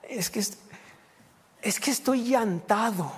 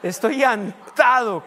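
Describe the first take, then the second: First: Put-on slow, hesitant child saying "llantado" for tired; child mispronouncing cansado. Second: Slow, shouted "Estoy llantado", relishing the mistake; laughing loud repeat. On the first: Pastor imitates his little son saying "llantado", slow and halting. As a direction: stretch out "estoy llantado" like a little boy fumbling the word. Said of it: "y empezó". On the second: Retold or imitated. Pastor gleefully shouts his son's wrong word to the congregation. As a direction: boom out "llantado" mid-laugh, much louder and higher. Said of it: "que a gusto me reí".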